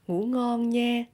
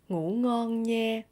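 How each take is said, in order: No difference in how they are said.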